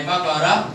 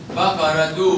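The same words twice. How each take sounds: First: بقرة said as "bakarah"; pausal haa. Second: بقرة تو as one word "bakaratu"; sounded taa. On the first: Teacher repeats the test, بقرة ending in -ah. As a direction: end بقرة without a t. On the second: Teacher repeats the test, بقرة تو ending in -tu. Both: Shown as a demonstration. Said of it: "بالتاء المربوطة".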